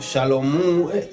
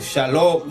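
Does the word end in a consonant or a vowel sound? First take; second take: vowel; consonant. First: The word ends with an added oo vowel. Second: The word ends in an m sound. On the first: This is the local community's pronunciation. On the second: This is the standard Hebrew pronunciation.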